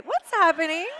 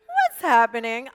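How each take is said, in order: First: Higher and louder, laughing through the question; laughing confusion. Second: Slow, louder, drawn-out rising question; mock baffled American. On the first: Retold or imitated. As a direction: giggle at the baffled Americans. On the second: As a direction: play the lost viewer who understands nothing. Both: Mocking confused Americans.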